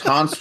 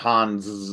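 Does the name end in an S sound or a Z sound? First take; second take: S sound; Z sound. First: The name ends in a short, sharp S sound. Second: The name ends in a buzzing Z sound. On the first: The speaker calls it right. "Hans with a staccato S" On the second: The speaker calls it wrong. "not Hans with a Z"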